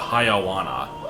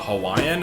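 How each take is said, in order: First: It is said with reshuffled syllables, 'Haiawana'. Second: It is said as the usual 'Hawaiian'. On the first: The speaker calls it wrong. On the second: The speaker calls it right.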